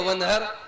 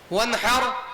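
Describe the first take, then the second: First: The h is a light, breathy sound. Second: The h is a strong, throaty sound. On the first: Scold. The speaker calls it wrong. "छोटी हा से" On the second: Offer a sacrifice. The speaker calls it right. "कुर्बानी कीजिए"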